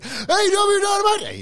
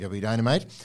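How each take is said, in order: First: It is shouted with huge announcer-style excitement. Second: It is said in a sudden, much flatter tone. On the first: "he's super, mega, ultra excited" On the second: "his voice changes impossibly"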